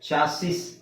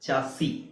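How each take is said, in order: First: The word ends with an s sound. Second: The word ends without an s sound. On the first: "ಚಾಸಿಸ್ ಅಂತಾನೆ ಹೇಳ್ತಾರೆ" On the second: "common pronunciation standard pronunciation ಬಂದು ಚಾಸಿ"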